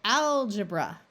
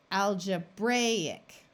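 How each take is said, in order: First: Algebra as AL-juh-bruh, AL hit louder; stress on first syllable. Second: Slow algebraic as al-juh-BRAY-ic; stress on BRAY. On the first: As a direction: punch the start of Algebra, let the end schwa. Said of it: "the first syllable is accented". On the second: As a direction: stretch the long A in algebraic. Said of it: "long A sound of bray". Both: Shown as a demonstration.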